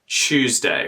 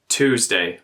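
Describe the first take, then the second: First: The word begins with a ch sound. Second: The word begins with a plain t sound. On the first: "it becomes a ch sound in Australian English" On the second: "We won't say Tuesday like Americans"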